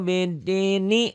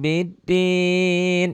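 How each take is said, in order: First: The word ends with an added vowel after n. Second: The word ends on the consonant n. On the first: The verse is joined to the next one. "Ninya dibaca" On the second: The reciter stops at the end of the verse. "Ini normal ya dalam salat salat normal di wakaf"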